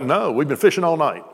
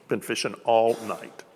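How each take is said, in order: First: A light call across the water, barely raised; retold fishermen calling to shore, understated; mild mock yell back. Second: Slowed right down, each word weighed; preacher slowing to make them feel it; slow, letting it sink in. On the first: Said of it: "They yell back". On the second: Shown as a demonstration. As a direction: let it land slowly with the listeners. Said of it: "just let that sink in".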